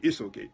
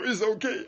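First: Said in the usual way. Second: Much higher, rising mock "It's okay."; mimicking pastor. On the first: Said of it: "Pastor Rena said". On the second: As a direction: echo the pastor's "It's okay." with a playful lift. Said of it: "You know, y-, you know".

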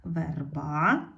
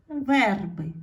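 First: Верба rising on a stressed final А; stress on last syllable. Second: Верби with a loud stressed Е, falling; stress on first syllable. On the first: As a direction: lean on the end of Верба, the А. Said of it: "треба змінити слово так". (наголос на А в кінці слова Верба) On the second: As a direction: hit the Е in верби. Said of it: "стало наголошеною". (сильний наголос на Е у слові верби) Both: Shown as a demonstration.

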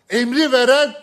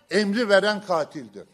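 First: Loud emphatic. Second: Said in the usual way. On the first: Real, not acted. Rhetorical climax, loud burst.

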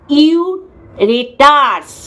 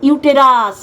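First: ইউরেটার্স slowly, with R before T; pronunciation of ইউরেটার্স. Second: ইউটেরাস with T before R; pronunciation of ইউটেরাস. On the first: Host showing the other term in the mix-up, pronouncing ইউরেটার্স slowly. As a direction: stretch out ইউরেটার্স as ইউ-রে-টার্স. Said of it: "Somnath ভুল উচ্চারণ করছে". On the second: Host correcting someone's mix-up of two terms, pronouncing ইউটেরাস distinctly. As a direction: say ইউটেরাস as ইউ-টে-রাস. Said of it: "ইউটেরাস হচ্ছে জরায়ু". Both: Shown as a demonstration.

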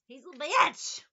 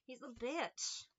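First: Loud, rising He's a bitch; emphatic yell. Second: Said in the usual way. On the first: Shown as a demonstration. Calling the Leo out, a loud emphatic exclamation. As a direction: shout He's a bitch with a rise on bitch. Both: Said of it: "Why do I keep saying that?".

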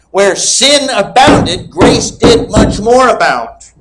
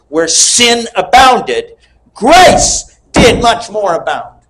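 First: High, slow and emphatic second reading; repeated slow proclamation. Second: High, slow, drawn-out pulpit quote; slow preaching proclamation. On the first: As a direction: say it again to rouse a thunderous amen. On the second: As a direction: proclaim it slowly to the congregation. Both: Real, not acted. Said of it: "I'll say it again".

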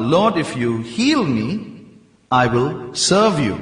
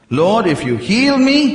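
First: Said in the usual way. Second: Higher, louder, eager plea; eager vow. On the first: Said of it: "Like, for example". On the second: Shown as a demonstration. Preacher acting out a believer's eager vow to God. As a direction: push it up like a desperate bargain. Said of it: "How many of you made that covenant".

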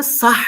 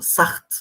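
First: Proper Arabic "sah", without added t; correct "sah". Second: "Saht" with a raspy kh and an added t; wrong "Saht", closed by a t sound; mispronounced "saht". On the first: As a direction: end "sah" on a breathed h. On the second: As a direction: say "Saht" with rasped h, ending in t. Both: Shown as a demonstration. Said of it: "Normalde sah demesi lazım".

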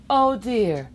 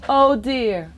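No difference in how they are said.

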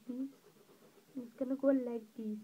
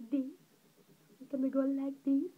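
The two takes are said the same way.

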